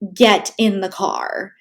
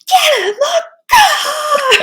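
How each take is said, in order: First: It is said in a firm, raised voice. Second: It is screamed in a furious yell.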